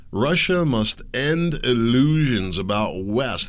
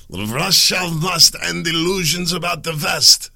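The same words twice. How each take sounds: First: Said in the usual way. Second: Loud, high, slow mock Russian accent. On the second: Host quoting a Russian senator, in a hammed-up Russian accent. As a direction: put on your best Russian accent, big and loud. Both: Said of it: "That was my best Russian accent".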